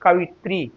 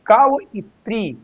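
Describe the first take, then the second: First: कवित्री in one unbroken piece; joined pronunciation. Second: कवइत्री slowly pulled apart, high start on कव, then इत्री; split pronunciation. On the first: Teacher showing it is read together, कवित्री said joined. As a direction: run कवित्री together, no gap after कवि. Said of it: "इसलिए एक साथ पढ़ते हैं". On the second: Teacher warning against separate reading, कवइत्री said in parts. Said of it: "कवइत्री तो अलग अलग माना जाएगा". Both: Shown as a demonstration.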